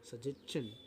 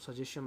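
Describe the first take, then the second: First: The word ends with a 'chun' sound. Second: The word ends with a 'shun' sound. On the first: The speaker calls it right. "కానీ అది actually" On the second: The speaker calls it wrong. "సజెషన్ అంటుంటాము"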